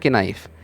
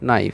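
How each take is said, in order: First: The word starts with a K sound before N. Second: The word starts with an N sound, no K. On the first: The speaker calls it wrong. "আমরা কিন্তু বলছি না কে নাইফ" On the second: The speaker calls it right. "শুধু আমরা নাইফটা উচ্চারণ করছি"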